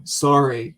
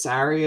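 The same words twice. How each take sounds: First: "sorry" with an "or" sound, like story; Canadian "sorry". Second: "sorry" with an open front vowel, like sari; American "sorry". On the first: Imagined Canadian insisting in writing session, "sorry" said "sore-ee". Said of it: "you're wrong". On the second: Imagined American co-writer correcting, "sorry" said "sah-ree". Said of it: "Actually, it's". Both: Acted.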